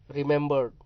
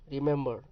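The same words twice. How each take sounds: First: रिमेंबर्ड said with the final ed sound, loud; past form with ed. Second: रिमेंबर said without the final ed, the ending dropped; रिमेंबर with the ending left off; base form without ed. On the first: Teacher shows students the ed ending, firm and clear. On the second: Teacher contrasts the plain word for students, level voice. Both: Shown as a demonstration. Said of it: "यहाँ ईडी है".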